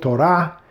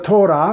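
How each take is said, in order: First: The stress is on the second syllable. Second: The stress is on the first syllable.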